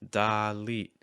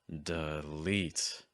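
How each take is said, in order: First: The first vowel is placed high in the throat. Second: The first vowel is reduced and placed low. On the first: The speaker calls it wrong. "Your placement's too high" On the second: The speaker calls it right. "We'll use a low placement this time for the full word"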